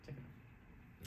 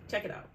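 First: Slow breathy whisper. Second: Said in the usual way. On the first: Shown as a demonstration. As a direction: whisper it slowly. Repeats the phrase, then whispers it.

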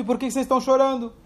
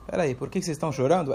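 First: Higher, quick, a real question back at them; puzzled question. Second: Softer, fast and lower, a knowing answer rather than a question; softer knowing reply. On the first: Rabi Akiva throws the question back at the weeping sages, higher and quick. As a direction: ask it as if truly puzzled. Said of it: "Ele não era uma pergunta". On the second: Rabi Akiva quietly answers the weeping sages, softer, lower and fast. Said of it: "Ele está respondendo". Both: Retold or imitated.

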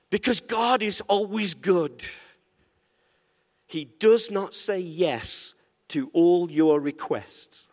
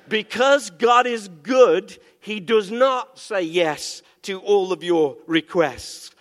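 First: Slow, unhurried teaching line; measured statement. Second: Louder, slow preaching on God; emphatic proclamation. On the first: Pastor first states the point slowly to the church. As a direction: lay it down slowly and calmly. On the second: Pastor repeats the point forcefully after asking for amen. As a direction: proclaim it slowly to the whole church. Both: Acted.

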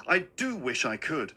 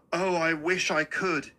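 First: Wistful, with "do" emphasised; earnest repeat, weight on "do"; stress on DO. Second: Said in the usual way. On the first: Acted. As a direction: lean on the word "do" to insist.

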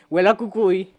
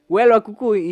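First: Said in the usual way. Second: "Huele" pushed out louder; louder second take, stressing "Huele"; louder repeat. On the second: Shown as a demonstration. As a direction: say it again, louder and fed up.

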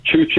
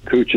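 First: "Chooch" opening with CH, like choose; correct name. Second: "Cooch" opening with a hard K; mispronounced name. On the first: Company man setting the host straight, "Chooch" pronounced with CH first. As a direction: say "Chooch" with CH at both ends. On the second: Company man echoing the host's slip, mispronounced as "Cooch" with a K. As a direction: say "Cooch" with K first, CH last. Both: Shown as a demonstration. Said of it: "Cooch is something else, but Chooch is".

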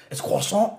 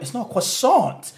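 First: Imitated French accent, higher pitched. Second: "croissant" slow and high, English with hard T; switch to English pronunciation. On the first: Retelling a French guy's video, imitated French accent. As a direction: mimic a very French man saying it. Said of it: "really French accent". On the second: Retold or imitated. Mimicking the video's punchline, "croissant" exaggeratedly English with a T. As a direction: draw out "croissant" with the final T sounded. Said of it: "switch from accent to English".

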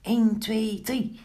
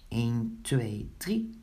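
First: High, rapid countdown; quick count. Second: Low, deliberate countdown; measured count. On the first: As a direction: rattle off the numbers up high. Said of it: "telde vlug". (vlug en hoog tellend) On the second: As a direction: count out each number low and spaced. Counting before a throw. (laag, afgemeten tellend) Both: A narrator's reading.

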